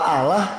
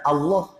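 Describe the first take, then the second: First: The L sound is light and thin. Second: The L sound is heavy and deep. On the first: The speaker calls it wrong. "Kalau Allah itu nanti malah apa? Ya, orang di luar Islam apa?" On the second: The speaker calls it right. "tafkhim begitu"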